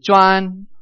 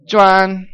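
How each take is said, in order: First: Juan held flat and a bit high; level tone juan. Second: Juan held flat and high again; steady level tone on Juan. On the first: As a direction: keep Juan straight across. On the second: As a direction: sustain Juan on one pitch. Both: Shown as a demonstration. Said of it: "So you keep monotone".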